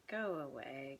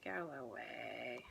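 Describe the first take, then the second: First: Soft go away. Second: Slower, even softer "go away" trailing off; a quiet, drawn-out plea to a rising feeling. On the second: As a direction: gently shoo it away, slowing. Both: Real, not acted. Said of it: "this whole thing's coming up".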